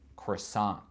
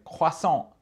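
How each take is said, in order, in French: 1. Il est prononcé avec un accent américain. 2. Il est prononcé avec un accent français. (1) "En anglais donc, de- des États-Unis, c'est croissant" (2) "si j'essaie de dire croissant en anglais avec un accent français"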